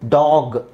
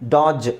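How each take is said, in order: First: The word ends with a hard g sound. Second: The word ends with a j sound. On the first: The speaker calls it right. "ಇಲ್ಲೆಲ್ಲ ಗನೇ ಇರೋದು" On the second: The speaker calls it wrong. "ಅಂತ ಹೇಳೋಕ್ಕಾಗಲ್ಲ"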